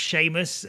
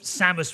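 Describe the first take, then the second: First: The name begins with a 'Shay' sound. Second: The name begins with a 'Sam' sound. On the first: The speaker calls it wrong. "as a kid, I always thought Samus was pronounced Seamus" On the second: The speaker calls it right. "I always thought Samus was pronounced Seamus"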